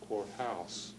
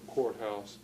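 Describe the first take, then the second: First: The stress falls on the second part. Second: The stress falls on the first part. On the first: This carries a native language's stress rule into English. "some algech stress pattern" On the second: This is the usual English pronunciation. "instead of courthouse"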